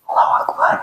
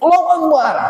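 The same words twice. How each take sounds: First: It is said quietly, without energy. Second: It is shouted loudly, with energy.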